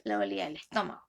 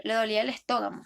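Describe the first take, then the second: First: Said in the usual way. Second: "estómago" said as "estóg-amo", swapping the m and g sounds; deliberately wrong "estómago", g and m reversed; metathesis error. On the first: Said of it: "en vez de decir". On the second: Shown as a demonstration. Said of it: "Por ejemplo".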